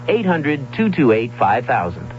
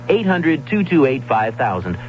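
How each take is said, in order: Both takes have the same delivery.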